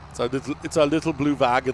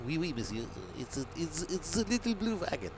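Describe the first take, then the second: First: Loud mock-German accent. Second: High-pitched mock French accent; badly faked French accent, climbing higher. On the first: Vlogger joking to himself about his trailer, German accent. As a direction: put on a heavy German accent. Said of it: "why am I talking in German". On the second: Vlogger attempting French about his blue wagon, mock French accent. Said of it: "I can't do French".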